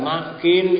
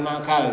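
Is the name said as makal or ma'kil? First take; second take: ma'kil; makal. First: The name has a catch and ends with i. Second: The name ends with an a sound. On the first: The speaker calls it right. "Ma'kil Ibnu Yasar" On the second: The speaker calls it wrong. "Hadisnya bukan makal"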